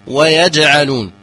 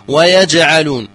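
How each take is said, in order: No difference in how they are said.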